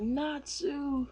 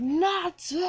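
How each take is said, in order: First: High call, held back in volume; acted alarmed call. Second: High, loud, drawn-out scream of a name; yell. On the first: Cat calling to his friend under attack, alarmed. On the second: Retold or imitated. Cat yelling as his friend goes off the cliff, screaming. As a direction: scream it out as your friend falls. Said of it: "Happy yells".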